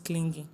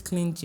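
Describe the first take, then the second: First: "clingy" said with a hard g, "kling-ghee". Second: "clingy" said with a j sound, "klin-jee". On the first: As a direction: sound the g in "clingy" as in "go". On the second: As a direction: say "clingy" to rhyme with stingy. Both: Shown as a demonstration. Contrasts two ways of saying clingy.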